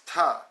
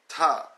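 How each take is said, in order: First: The initial P sound is left out. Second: The same.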